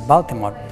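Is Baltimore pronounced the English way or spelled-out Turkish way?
English. It is said with the English pronunciation. It is said the way English speakers say it. The speaker calls it right. "instead of saying Baltimore"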